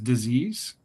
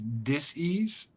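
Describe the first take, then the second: First: It is said as one ordinary blended word. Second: It is said as two parts, dis and ease. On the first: It means an illness. "which some people pronounce as disease" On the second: It means a lack of ease. "the opposite of ease somehow is dis-ease"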